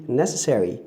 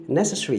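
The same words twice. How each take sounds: First: NECESSARY said as "NESS-a-serry", all four syllables; schwa rendered. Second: NECESSARY said as "NESS-a-sree", schwa dropped; schwa omitted. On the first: Teacher contrasting the full form of necessary, schwa rendered. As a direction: sound out the -SER- in NECESSARY. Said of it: "you've rendered the schwa". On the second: Teacher demonstrating omitted schwa in necessary, schwa omitted. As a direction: squeeze out the vowel before -ry in NECESSARY. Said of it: "you've omitted the schwa". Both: Shown as a demonstration.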